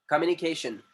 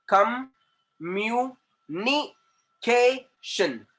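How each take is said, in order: First: Said in the usual way. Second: "communication" very slow and higher, in separate beats; syllable by syllable. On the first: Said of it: "वहां पे आपका syllable बनेगा". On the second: Shown as a demonstration. Teacher showing where syllables form, "communication" slowly chopped apart. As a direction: pause after each syllable of "communication". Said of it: "जहां पे sound change होगा".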